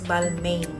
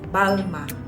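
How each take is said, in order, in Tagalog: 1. Nagtatapos ito sa malinaw na tunog na n. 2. Nagtatapos ito sa patinig na walang tunog na n. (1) "In British uh, pronunciation" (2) "In French, it's pronounced like Balma. Silent I N"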